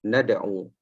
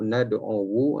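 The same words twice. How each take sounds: First: The final waw is silent, ending in plain u. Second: The final waw is voiced with a rounded u. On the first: The vowel mark is understood but not pronounced. The speaker calls it right. "waw itu dimatikan. Jadi dibaca nad'u" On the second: This form is heavy and awkward to pronounce. The speaker calls it wrong. "berat nak sebut nad'u, uh, sehingga sehingga mocong mulut kan"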